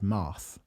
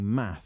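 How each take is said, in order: First: The A vowel in the word sounds soft. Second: The A vowel in the word sounds hard. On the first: This is how the animated characters said the word. The speaker calls it wrong. "they said it with a, a soft A, so they said math" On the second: This is how the word is normally expected to sound. The speaker calls it right. "instead of saying math"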